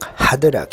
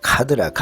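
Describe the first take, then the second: First: The word starts with a soft h sound. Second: The word starts with an aspirated k sound. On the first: The speaker calls it right. "하드락 해야 되는데" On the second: The speaker calls it wrong. "카드락 하고 그러잖아요. 그게 격음화거든"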